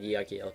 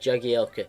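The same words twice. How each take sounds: First: The name begins with a Y sound. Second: The name begins with a J sound. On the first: The speaker calls it right. "it's pronounced as Y" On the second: The speaker calls it wrong. "we always said Jagielka"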